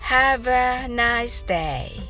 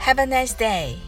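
First: The phrase is said slowly. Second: The phrase is said fast. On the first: "最初はゆっくり言ってみましょう。" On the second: "今度は早めに言ってみましょう。"

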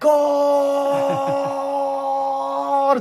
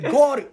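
First: The final vowel is stretched out long. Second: The word is said short and plain.

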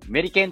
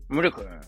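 First: The word is said crisply and clearly. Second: The word is said in a muffled, mumbled way. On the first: The speaker calls it wrong. "メリケンって言わないことです" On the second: The speaker calls it right. "ちょっとごもるような感じで、メリケンみたいな感じで言うと"

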